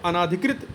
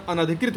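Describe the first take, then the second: First: अनाधिकृत with long "naa"; wrong form. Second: अनाधिकृत said with short "na"; correct form. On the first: Teacher rejects the misspelling, अनाधिकृत with "naa". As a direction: lengthen the second vowel of अनाधिकृत. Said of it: "नहीं होता". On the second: Teacher removes the vowel mark, अनाधिकृत with short "na". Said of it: "ना पे आ की मात्रा नहीं रहेगी". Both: Shown as a demonstration.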